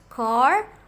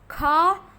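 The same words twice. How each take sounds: First: It is said in an American accent. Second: It is said in a British accent. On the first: "In American" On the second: "in British English, car, bear, and start is"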